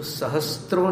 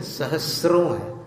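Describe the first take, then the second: First: सहस्त्रों said with an added त, sa-has-tron; the wrong way, with a t sound before र; wrong pronunciation. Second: सहस्रों said sa-has-ron, no त, slower; the right way, स straight into र; correct pronunciation. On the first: Teacher shows the common mistake, सहस्त्रों with a t sound. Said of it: "सहस्त्रों नहीं है". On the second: Teacher gives the correct सहस्रों, slow, with no t sound. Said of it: "त नहीं है उसमें". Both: Shown as a demonstration.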